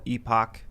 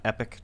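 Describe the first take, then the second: First: Epoch said as EE-pock; EE-pock pronunciation. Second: Epic said as EPP-ick; EPP-ick pronunciation. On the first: Cohost checks the paper's name, EE-pock pronunciation. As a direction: say Epoch with a long EE. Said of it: "it's called Epoch Times". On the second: Cohost offers the other name, EPP-ick pronunciation. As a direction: say Epic with a short E. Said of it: "and not Epic Times". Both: Shown as a demonstration.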